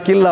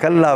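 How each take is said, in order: First: The vowel before 'lla' is i. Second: The vowel before 'lla' is a. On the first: The speaker calls it wrong. "दूसरा किल्ला हो गया" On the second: The speaker calls it right. "कल्ला बचा"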